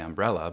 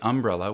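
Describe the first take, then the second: First: It is said in the speaker's own usual way. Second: It is said the way Southerners say it. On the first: "where I say umbrella" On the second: "Southerners may say umbrella"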